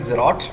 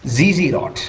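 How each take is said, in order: First: The name is said in a shortened form. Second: The name is said in its full form. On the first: This form is used when talking quickly. "people do kind of say Zerot when speaking quickly" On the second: This is the name's actual form. "Z Z Rot is kind of the actual"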